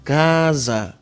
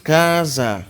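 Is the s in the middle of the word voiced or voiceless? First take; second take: voiced; voiced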